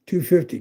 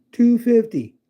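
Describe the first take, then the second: First: Said in the usual way. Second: Two fifty said higher and louder, stressed on two; excited repeat. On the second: Shown as a demonstration. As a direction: punch out the price in disbelief.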